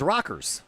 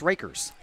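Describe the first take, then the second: First: The first vowel sounds like the one in 'rock'. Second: The first vowel sounds like the one in 'rake'. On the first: This is how the name is said in Clinton County. "if you're in Clinton County, R A C K E R S is Rockers" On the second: This is how the name is said locally here. "Here it's Rakers"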